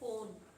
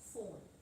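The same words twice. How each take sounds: First: The word begins with a p sound. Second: The word begins with an f sound. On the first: The speaker calls it wrong. "We don't say phone" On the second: The speaker calls it right. "it is pronounced as fa"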